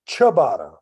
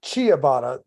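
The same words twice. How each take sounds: First: The first syllable is a plain 'cha' sound. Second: The first syllable sounds like 'chia'. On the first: The speaker calls it right. "say it with me" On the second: The speaker calls it wrong. "not ciabatta. It's not growing fucking flowers"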